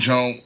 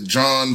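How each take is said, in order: First: The word ends in a k sound. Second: The word ends in an n sound. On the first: This is how the word is said in Washington, D.C. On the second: This is how the word is said in Philadelphia.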